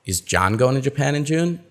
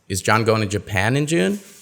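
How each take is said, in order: First: The word John is stressed. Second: The word Japan is stressed. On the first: The asker wants to know who is going. "we're not sure uh, who's going" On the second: The asker wants to know where he is going. "No, he's going to Taiwan"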